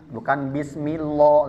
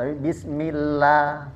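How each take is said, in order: First: The L is heavy, with a darker vowel. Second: The L is thin, with a light vowel. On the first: The speaker calls it wrong. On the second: The speaker calls it right.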